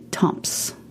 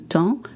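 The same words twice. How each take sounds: First: The final p and s sounds are pronounced. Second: The final p and s sounds are silent. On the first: The speaker calls it wrong. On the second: The speaker calls it right.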